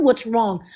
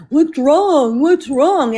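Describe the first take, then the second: First: Said in the usual way. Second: Mocking the husband. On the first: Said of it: "what the fuck you mean". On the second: Mimicking her husband who keeps asking what's wrong. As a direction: parrot him the way he nags. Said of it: "every fucking day".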